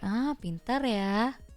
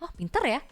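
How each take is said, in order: First: The sarcasm is obvious and easy to hear. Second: The sarcasm is subtle and hard to hear.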